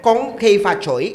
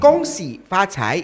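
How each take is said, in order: First: The greeting is said in Cantonese pronunciation. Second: The greeting is said in Mandarin pronunciation. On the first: "is Cantonese" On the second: "is Mandarin"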